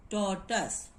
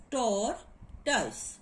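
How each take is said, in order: First: Said in the usual way. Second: TORTOISE split into tor, tus with a clear gap; syllable by syllable. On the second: Shown as a demonstration. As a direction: say "tortoise" slowly in two separate syllables. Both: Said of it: "find it out according to your articulation".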